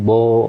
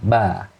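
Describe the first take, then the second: First: The vowel is rounded, like o. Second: The vowel is open, like a. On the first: The speaker calls it wrong. "bukan bo. Jadi kurang terbuka rongganya" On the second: The speaker calls it right. "harusnya ba"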